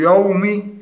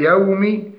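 First: يوم with a thick, dark y and a; heavy ya. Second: يوم with thin y and clear open a; light ya. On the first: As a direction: darken the start of يوم, as a mistake. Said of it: "تفخيم الياء". (يوم بتفخيم الياء) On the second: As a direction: keep the start of يوم light. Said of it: "فنرقق الياء مع تحقيق فتحها". (يوم بترقيق الياء وفتحها) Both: Shown as a demonstration.

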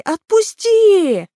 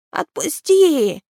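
First: Much higher and louder, slow drawn-out shriek; shrieking creature cry. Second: Creature cry. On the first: Captured creature begs Naal to let go, shrieking. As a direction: stretch the word into a desperate scream. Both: Acted. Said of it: "закричал Граги".

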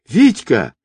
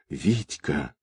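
First: High-pitched desperate call; desperate woman's cry. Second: Very soft, lowered whisper. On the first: Girl sees her man swept toward rocks, desperate high cry. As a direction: cry out in alarm for a loved one. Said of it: "раздался отчаянный женский крик". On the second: Girl limp in the boatswain's arms, faint whisper of his name. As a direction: whisper the name, all strength gone. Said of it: "прошептала девушка". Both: A narrator's reading.

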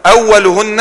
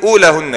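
First: "أولهن" said awwaluhunna, from masculine awwal; masculine-form reading. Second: "أولهن" said oolaahunna, from feminine oolaa; feminine-form reading. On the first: Teacher reads out the hadith variant, "أولهن" as masculine awwaluhunna. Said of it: "وأول ده مذكر". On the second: Teacher gives the other variant, "أولهن" as feminine oolaahunna. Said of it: "لأن أولى دي مؤنثة". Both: Shown as a demonstration.

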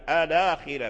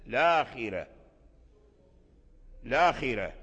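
First: الآخرة said as al-akhira, opening with a; with hamzat al-wasl. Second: الآخرة said as lakhira, no opening vowel; starting on the lam. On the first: Teacher demonstrates starting with hamzat al-wasl, al-akhira. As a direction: start الآخرة with a clear a- before the l. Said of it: "فتبدأ بهمزة الوصل الآخرة". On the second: Teacher demonstrates starting straight on the lam, lakhira. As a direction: drop the a- and begin الآخرة directly on the l. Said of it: "ويجوز لك أن تقول الآخرة". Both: Shown as a demonstration.

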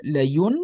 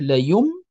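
First: "لين" ending on a clear tongue-tip n; original n sound. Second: "ليم" ending on a closed-lip m; n turned to m. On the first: Teacher names the replaced letter, final n. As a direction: slowly finish "لين" on n, not m. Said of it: "عوضا على لين". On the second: Teacher explains the converted letter, final m. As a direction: slowly close the lips at the end of "ليم". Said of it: "أي تقلب النون ميم". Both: Shown as a demonstration.

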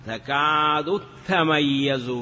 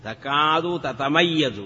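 First: تميز with the two t's merged into one held t; drawn-out تكاد, then a geminated t in تميز; assimilated recitation. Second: تتميز with two separate t sounds; original unmerged form. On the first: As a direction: recite تكاد تميز slowly, doubling the opening t. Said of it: "كما قرئ في قوله تعالى". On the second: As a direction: slowly sound both t's of تتميز. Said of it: "أصله". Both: Shown as a demonstration.

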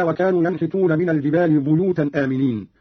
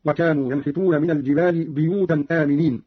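First: Said in the usual way. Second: بيوتا said "biyutan"; Qalun's بيوتا, i vowel after the b; kasra on ba. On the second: Shown as a demonstration. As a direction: open بيوتا with bi instead of bu. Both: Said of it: "قرأ قالون بكسر الباء هكذا".

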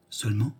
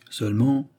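First: Seulement repeated softer, with an anxious rise; a quieter, worried seulement. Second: Said in the usual way. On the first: A narrator's reading. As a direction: seulement echoed in a hushed, uneasy tone. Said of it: "répéta-t-il d'une voix anxieuse". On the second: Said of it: "répéta-t-il".

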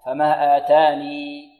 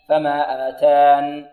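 First: Slow chant, آتاني ending on a long ee; stop keeping ya. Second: Slow chant, آتان closed on a still ن; stop dropping ya. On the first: Teacher showing students the first pausal option, ya-kept demo. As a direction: hold the final ya of آتاني, then stop. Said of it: "الإثبات وماذا؟". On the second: Teacher showing students the second pausal option, ya-dropped demo. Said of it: "والحذف". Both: Shown as a demonstration.

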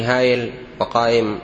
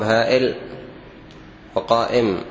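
First: "هايل وقائم" with a y glide, hayil and qayim; mistaken pronunciation. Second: "هائل وقائم" with a glottal stop, ha'il and qa'im; correct, with hamza. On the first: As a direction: glide through "هايل وقائم" with y, no glottal stop. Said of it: "الخطأ الثاني". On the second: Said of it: "بالهمز". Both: Shown as a demonstration.

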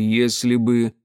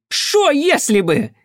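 First: Said in the usual way. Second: High, loud, drawn-out indignant retort; flaring up. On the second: A narrator's reading. Armed mother cuts into his explanation, flaring up. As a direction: throw the words back at a high pitch. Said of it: "тут же взвилась та".

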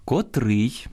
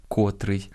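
First: Котрий stressed on the last syllable, -РИЙ; correct stress. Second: Котрий stressed on the first syllable, КО-; wrong stress. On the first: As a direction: hit the second syllable of котрий. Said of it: "Я зараз читаю правильно". (наголос на останньому складі: котрий) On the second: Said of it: "а не котрий". (наголос на першому складі: котрий) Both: Shown as a demonstration.

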